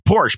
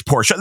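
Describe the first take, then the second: First: Porsche said as one syllable. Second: Porsche said as two syllables, Por-shuh. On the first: Host mimicking the show's back-and-forth, one-syllable Porsche. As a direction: end Porsche on sh, no vowel after. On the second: Host mimicking the show's back-and-forth, two-syllable Porsche. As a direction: give Porsche a final uh. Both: Retold or imitated. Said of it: "say the name Porsche and Porsche".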